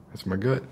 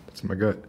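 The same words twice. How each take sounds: The two takes are said the same way.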